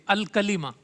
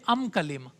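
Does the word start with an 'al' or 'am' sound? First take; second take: al; am. First: The opening article is pronounced with an l sound. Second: The opening article is pronounced with an m sound. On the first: "तो इसके शुरू में अलिफ लाम है।" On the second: "बाज़ कबीलों में लाम के बजाय मीम आता था।"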